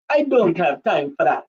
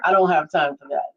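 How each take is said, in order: First: Put-on Nigerian accent that drifts Jamaican; attempted Nigerian accent. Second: Said in the usual way. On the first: Shown as a demonstration. Performing on a viewer's request, shaky-aim Nigerian accent. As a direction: try a Nigerian voice, landing near Jamaican. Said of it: "That's not Nigerian ... That was Jamaican". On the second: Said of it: "say that in your Nigerian voice".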